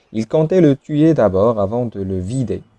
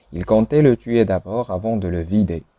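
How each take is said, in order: No difference in how they are said.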